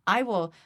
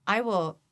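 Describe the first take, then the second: No difference in how they are said.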